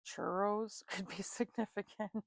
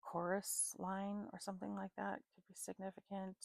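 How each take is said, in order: First: Slow, giggling slip of the tongue; laughing through it. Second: Said in the usual way. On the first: Real, not acted. Reader laughing at her own slip to viewers. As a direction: laugh mid-line at the silly word.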